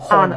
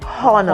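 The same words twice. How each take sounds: First: The H at the start is silent. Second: The H at the start is pronounced. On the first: The speaker calls it right. "the letter H in that word is silent" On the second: The speaker calls it wrong. "it is wrong for you to say honor"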